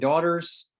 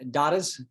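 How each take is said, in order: First: The R sound is pronounced in an American way. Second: The R sound is dropped in an Australian way.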